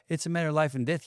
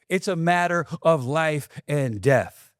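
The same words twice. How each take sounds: First: The voice rises at the end. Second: The voice falls at the end. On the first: The speaker sounds unsure and not serious. The speaker calls it wrong. "It doesn't sound the same when you go" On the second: The speaker sounds certain and serious. The speaker calls it right. "Land the plane"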